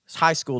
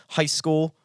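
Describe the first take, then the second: First: Said in the usual way. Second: Put-on New Jersey accent. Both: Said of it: "you talk to somebody from New Jersey".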